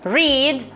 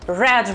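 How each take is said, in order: First: The word is said with the present-tense vowel. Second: The word is said with the past-tense vowel. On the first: This is the present-tense form. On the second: This is the past-tense form.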